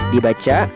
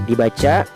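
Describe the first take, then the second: Both takes have the same delivery.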